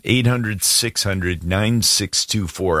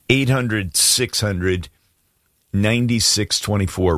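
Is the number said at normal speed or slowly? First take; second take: normal speed; slowly. First: The number is said at normal speed. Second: The number is said slowly.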